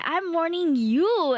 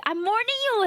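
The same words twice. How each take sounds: First: Drawn-out teasing threat; slow mock warning. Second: Higher teasing threat; playfully warning Moondoggo; mock warning. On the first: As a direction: stretch the warning out slowly. Repeats mock threat, slower.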